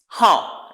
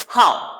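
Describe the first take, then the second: First: The pitch falls sharply once. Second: The same.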